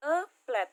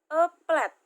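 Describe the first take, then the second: First: Said in the usual way. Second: Louder, higher model read of A plate; teacher reading A plate loud for class to copy. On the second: Shown as a demonstration. Teacher modelling A plate to students, loud and clear. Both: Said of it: "Di sini ada contoh, [name] kasih".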